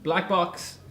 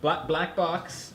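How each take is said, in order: First: Shouting. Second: Very slow, spelling it out; slow and deliberate. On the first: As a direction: shout it across the room. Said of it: "don't have to shout". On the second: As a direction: drag each word. Repeated slowly after shout remark. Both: Real, not acted.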